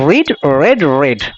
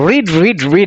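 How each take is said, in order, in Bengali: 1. শেষের দুটো শব্দে স্বরধ্বনি বদলে 'red' হয়ে যায়। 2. তিনটে শব্দই একই রকম শোনায়, 'reed'-এর মতো। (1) "প্রনাউন্সিয়েশনটা একটু আলাদা হবে" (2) "অনেকে মিস্টেক করে সেই মিস্টেকটা হলো রিড রিড রিড বলে কিন্তু অথচ এটা নয়"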